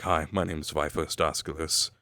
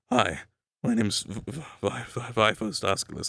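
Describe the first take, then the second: First: A low, slightly gravelly voice that stays steady. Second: A low voice that cracks upward with nervous inflection. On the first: "without the crackliness, is just sort of this" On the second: "a little bit of a high inflection, sort of voice cracking, nervousness"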